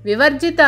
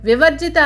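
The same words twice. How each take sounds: No difference in how they are said.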